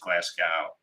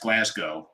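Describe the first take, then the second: First: The word is said with an American pronunciation. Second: The word is said with a non-American pronunciation. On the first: The speaker calls it wrong. "the American way" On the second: The speaker calls it right. "it's pronounced Glasgow"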